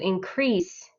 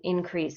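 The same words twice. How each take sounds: First: The stress is on the second syllable. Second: The stress is on the first syllable. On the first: It is used as a verb. "they put it into the second part" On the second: It is used as a noun. "the first part is rest. So I would draw a line under the I in"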